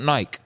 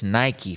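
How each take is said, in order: First: "Nike" as a single syllable; wrong British Nike. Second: "Nike" ending in a clear ee; correct Nike pronunciation. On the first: Scolding British listeners, "Nike" mispronounced with a silent e. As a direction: say "Nike" to rhyme with bike, no final ee. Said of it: "Start speaking English correctly". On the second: Correcting British listeners, "Nike" said properly as NY-kee. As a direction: say "Nike" with two syllables, NY-kee. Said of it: "it's not Nike". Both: Shown as a demonstration.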